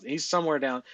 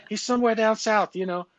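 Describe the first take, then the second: First: Said in the usual way. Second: High-pitched, louder attempt at a Boston accent. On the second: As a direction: put on a hammed-up Boston accent. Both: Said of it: "that's the best Boston accent I got".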